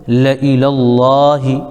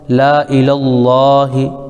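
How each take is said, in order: First: The vowel after the first consonant is short. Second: The vowel after the first consonant is long. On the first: This is how the word is recited. "पढ़ने का तरीक़ा" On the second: This is how the word is spelled. "लिखने का तरीक़ा"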